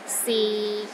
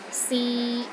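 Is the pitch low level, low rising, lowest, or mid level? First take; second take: low level; mid level. First: The pitch is low and steady throughout. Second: The pitch is steady in the middle range. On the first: "the sixth tone is low and steady" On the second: "in the middle of your range and it is steady"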